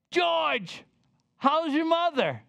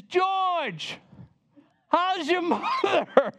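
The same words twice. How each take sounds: First: High, delighted call of his name; the same lady greets him again, high and pleased; friendly greeting. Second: High, bright delighted call of his name; a lady at the plane door greets him, delighted and high; surprised friendly greeting. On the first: Retelling the lady's greeting. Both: Retold or imitated.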